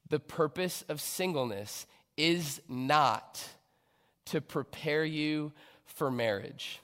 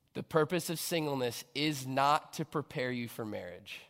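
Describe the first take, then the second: First: Slowed right down, pause after "not" before "to prepare you for marriage"; slow, deliberate restatement. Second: Said in the usual way. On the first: Shown as a demonstration. Preacher repeating her key point to the church, slow and weighted. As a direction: lean on "not", then let "to prepare you for marriage" land slowly.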